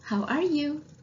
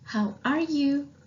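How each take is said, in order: The two takes are said the same way.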